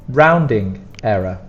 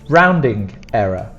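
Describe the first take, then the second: The two takes are said the same way.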